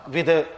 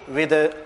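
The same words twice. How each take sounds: Both takes have the same delivery.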